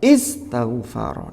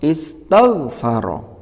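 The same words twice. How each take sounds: First: The stress falls on a syllable other than 'tagh'. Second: The stress is on the 'tagh' syllable. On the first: The speaker calls it wrong. "kalau kita mengucapkannya nabernya keliru, ya tidak tepat" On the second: The speaker calls it right. "ada di suku kata taw"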